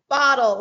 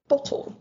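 First: It is said in an American accent. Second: It is said in a British accent. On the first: This is how it is said today. "which is how I say it now" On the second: This is how it was said in early childhood. "our adorable British accents when we were three, like asking for a bottle"

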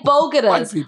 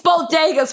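First: The word is said as 'bogotas'. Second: The word is said as 'bodegas'. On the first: The speaker calls it wrong. "And bogotas" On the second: The speaker calls it right. "it's bodegas, first of all"

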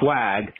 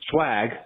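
First: The word is said with a lisped s sound. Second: The word is said with a plain s sound. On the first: It may be some other, unknown word. "She had a lisp" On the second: It is the ordinary word. "as in swag, the actual word"

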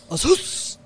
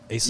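First: The word is shouted forcefully like a martial-arts cry. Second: The word is said at a normal, calm volume. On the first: "I said it from like my stomach, bro" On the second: "That's how I say it. I think I say it like Asus"

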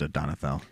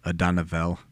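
First: It is said quickly with the sounds run together. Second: It is said slowly with a clear voiced th sound. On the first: "if you want to say it fast, just Adonathel" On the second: "That's what it's supposed to be like"

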